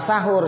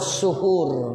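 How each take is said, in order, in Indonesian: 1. Vokal pertama adalah bunyi 'a'. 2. Vokal pertama adalah bunyi 'u'. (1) "tapi bahasa Arabnya bukan sahur" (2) "sinnya dibaca domah"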